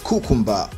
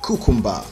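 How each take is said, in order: The two takes are said the same way.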